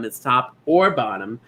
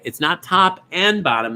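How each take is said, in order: First: "or" lifted with a rising push, top and bottom left light; stress on OR. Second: Said in the usual way. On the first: Shown as a demonstration. Host correcting bingo players on the rule, stressing "or".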